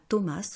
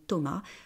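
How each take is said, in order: First: The final s is pronounced. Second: The final s is silent. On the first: The speaker calls it wrong. "on ne dit pas Thomas" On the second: The speaker calls it right. "on ne prononce pas la dernière consonne, on dit Thomas"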